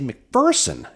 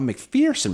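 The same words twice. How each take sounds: First: The middle syllable sounds like 'fur', not 'fear'. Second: The middle syllable sounds like 'fear'. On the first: The speaker calls it right. "There is no fear in McPherson" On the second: The speaker calls it wrong. "and not McPherson"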